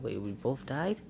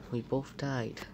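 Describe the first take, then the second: First: We both died? rising at the end; surprised question. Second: We both died falling at the end; flat statement. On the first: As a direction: ask it in disbelief, voice going up. Surprised question about both dying. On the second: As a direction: state it plainly, voice dropping. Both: Real, not acted.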